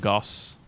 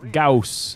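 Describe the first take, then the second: First: The vowel is short 'o' as in 'moss'. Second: The vowel is 'ow' as in 'house'. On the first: The speaker calls it wrong. "not Goss" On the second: The speaker calls it right. "Gauss, not Goss"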